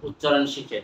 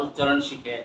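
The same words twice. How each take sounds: The two takes are said the same way.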